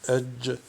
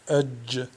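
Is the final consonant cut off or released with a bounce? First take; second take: bounce; bounce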